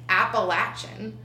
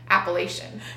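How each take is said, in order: First: It is said with the Southern pronunciation. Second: It is said with the Northern pronunciation. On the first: The speaker is from the South. "if you're born in the South, you pronounce it Appalachian" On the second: The speaker is from the North. "if you're born in the North, you pronounce it Appalachian"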